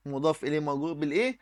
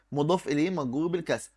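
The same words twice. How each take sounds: First: Quick rising prompt ending on بالإيه; teacher's quick cue question rising on بالإيه. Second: Teacher's calm answer closing on a fall; answer with falling tune. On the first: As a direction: ask مضاف إليه مجرور بالإيه؟ fast, rising up on بالإيه to invite the class to answer. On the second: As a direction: settle down on بالكسر as a statement. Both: Shown as a demonstration.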